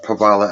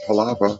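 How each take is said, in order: First: The v sound comes before the l sound. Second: The l sound comes before the v sound. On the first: The speaker calls it wrong. "I said it wrong purposely. So it would rhyme with the other word" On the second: The speaker calls it right. "not Palava"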